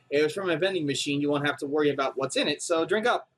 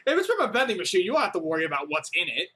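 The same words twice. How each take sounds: First: Easy reassuring read; lightly voiced kind helper. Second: Mocking repeat. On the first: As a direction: offer it as harmless. Character offers coffee. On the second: Shown as a demonstration. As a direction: throw the line back, unbelieving. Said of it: "do you not understand how suspicious that sounds".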